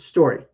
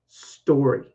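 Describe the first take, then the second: First: The word is said quickly and reduced. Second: The word is said slowly and carefully. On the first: "The fast version is story" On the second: "Now that's the slow version"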